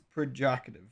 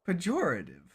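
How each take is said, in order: First: An R sound follows the first P. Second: No R sound follows the first P. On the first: "I legitimately thought this always had an R" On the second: "it doesn't have an R"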